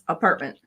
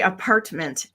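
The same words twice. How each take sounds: First: The t is cut off with a stop. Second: The t sounds are fully pronounced. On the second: "we don't say"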